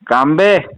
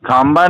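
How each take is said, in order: First: The name is said ending in an 'e' sound. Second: The name is said ending in an 'a' sound. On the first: The speaker calls it right. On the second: The speaker calls it wrong. "खांबा नहीं है"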